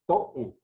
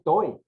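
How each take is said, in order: First: Toe in two syllables, to-É; broken diphthong. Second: Toe said as one gliding syllable; run as a diphthong. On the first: Teacher correcting the word, toe split as to-É. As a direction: split toe and stress the final e. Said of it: "ahí se rompe el dictongo". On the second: Teacher showing the wrong reading, toe as a diphthong. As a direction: merge the o and e of toe. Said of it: "no es toe". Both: Shown as a demonstration.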